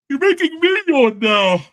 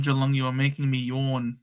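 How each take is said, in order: First: High, louder, sing-song mock of his mate's whinge; mocking mimic. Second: Said in the usual way. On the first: Teasing his mate who is bored by Geelong, high mocking mimic. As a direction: parrot the line back to tease him. Mocks the friend's line back.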